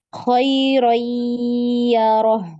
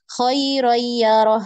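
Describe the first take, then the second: First: The nasal sound is held and lengthened. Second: The nasal sound is cut short, not held. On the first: The speaker calls it right. "tapi ditahan ya. Ditahan, dipanjangkan eh, tempo, tempo gunahnya" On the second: The speaker calls it wrong. "jadi kita tidak baca khairoyyaroh"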